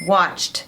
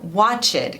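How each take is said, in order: First: The word is said with one syllable. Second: The word is said with two syllables. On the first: The speaker calls it right. "Uma sílaba só com som de T no final" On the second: The speaker calls it wrong. "muita gente fala watch it com duas sílabas"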